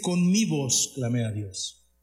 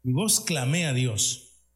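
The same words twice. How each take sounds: First: Slow reading with "mi" stressed and falling. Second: Slow reread with "voz" stressed and falling. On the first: Preacher reading the psalm to the congregation, stressing "mi". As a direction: lean on the word "mi", slow and deliberate. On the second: Preacher rereading the verse to the church, stressing "voz". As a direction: shift the weight onto "voz", slowly. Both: Shown as a demonstration. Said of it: "Fíjese bien".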